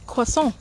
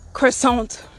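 First: It is said with a French pronunciation. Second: It is said with an American English pronunciation. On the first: The speaker calls it right. "it sounds so fancy when you say it right" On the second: The speaker calls it wrong. "It's not croissant"

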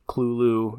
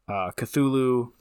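First: The word begins with a 'kl' sound. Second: The word begins with a 'kth' sound. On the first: This is closest to the original name. "The correct or the closest pronunciation would be Clulu" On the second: This is how most people say it. "why everybody says it"

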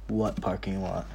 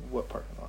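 First: It is said noticeably louder. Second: It is said at normal, quieter volume.

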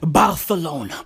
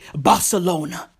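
First: The 'c' is pronounced as a lisped 'th'. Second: The 'c' is pronounced as a plain 's'. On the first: "He used to say Barcelona. He had a lisp" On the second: "he couldn't say Barcelona"

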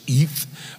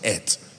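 First: The word ends with a soft th sound. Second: The word ends with a hard t sound. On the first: "a Hebrew word that's spelled E-T-H" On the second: "but I pronounce it et"

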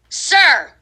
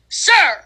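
First: It is said plainly, without much enthusiasm. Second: It is said with lively enthusiasm.

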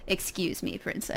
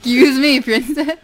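First: It is said calmly in a plain voice. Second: It is said in a weird put-on voice.

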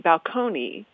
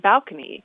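First: The stress is on the second syllable. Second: The stress is on the first syllable. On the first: This follows the pattern of the source language. "in Italian, the stress is on the second syllable, so it would be balcony" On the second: This follows the usual pattern of the borrowing language. "in English, we often like to have the stress on the first syllable, so it became balcony"

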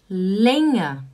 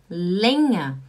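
The two takes are said the same way.

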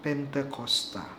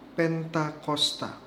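First: The second vowel is an 'e' sound. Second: The second vowel is an 'a' sound. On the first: "gereja Katolik di Indonesia menggunakan kata Pentekosta" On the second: This is the form used by Protestant churches. "kata yang digunakan pada Kisah Para Rasul bab 2 ayat 1 adalah Pentakosta"

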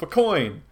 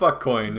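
First: The F is a bare sound with no vowel. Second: The F is said as the letter name 'eff'. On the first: The speaker calls it right. "you pronounce the F, but you don't really have any vowels or letters after" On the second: The speaker calls it wrong. "not F-Coin"

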